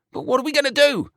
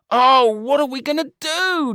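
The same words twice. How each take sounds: First: Much higher, desperate plea; panicked wail. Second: Wailing. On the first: George pleading with Brian, panicked. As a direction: beg for an answer. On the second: George despairing to Brian, wailing. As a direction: stretch the cry out helplessly. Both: A narrator's reading. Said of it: "George wailed".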